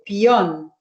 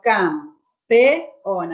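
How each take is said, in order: First: An i glides into o within one syllable. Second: The e and o fall in separate syllables. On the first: "si el hablante usa la I, dice pión, lo transforma en un diptongo" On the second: "si yo lo separo en sílabas, digo campeón. Acá hay un hiato"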